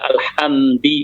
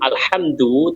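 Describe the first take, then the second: First: The word ends with an i vowel. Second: The word ends with a u vowel. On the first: The speaker calls it wrong. "tetapi dibaca alhamdi" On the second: The speaker calls it right. "walaupun alhamdu"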